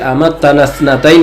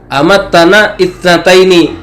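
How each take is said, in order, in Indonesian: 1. Bunyi i sebelum 'thnataini' dihilangkan. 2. Bunyi i sebelum 'thnataini' dibaca. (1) "Tapi amattana tsnatain karena hamzanya hamzah wasal" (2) "enggak dibaca amattana ithnataini"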